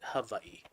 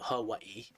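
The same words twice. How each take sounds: First: It is said the native Hawaiian way. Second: It is said the common English way. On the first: This is how native Hawaiians say it. The speaker calls it right. "the native Hawaiians pronounce it Hawaii" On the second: This is how many outsiders say it. The speaker calls it wrong. "some people I know they pronounce it Hawaii"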